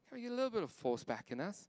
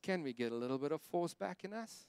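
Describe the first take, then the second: First: It is said without a British accent. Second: It is said with a slight British accent.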